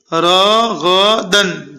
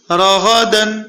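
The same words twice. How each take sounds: First: Syllables drawn out one by one, very slow; slow spelled-out reading. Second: راغدن run together in one quick breath; read quickly. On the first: Quran teacher to pupils, slow careful drill. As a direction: read راغدن slowly, syllable by syllable. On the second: Quran teacher to pupils, quick joined reading. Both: Shown as a demonstration. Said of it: "جلدی پڑھیے".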